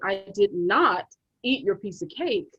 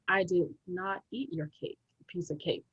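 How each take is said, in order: First: It sounds somewhat aggressive. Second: It sounds calm, without aggression.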